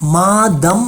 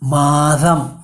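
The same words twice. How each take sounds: First: The middle consonant is a dental stop. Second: The middle consonant is a voiced dental fricative. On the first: The speaker calls it wrong. "மாதம் இல்லை" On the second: The speaker calls it right. "ஒலிப்பு பல் உரசொலி"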